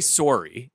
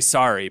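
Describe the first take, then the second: First: It is said with a Canadian round O. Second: It is said with an American accent.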